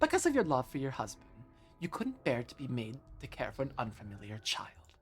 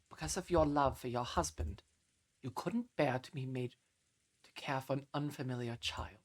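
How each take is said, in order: First: It is read in Beatrice's put-on character voice. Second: It is read in the reader's normal voice.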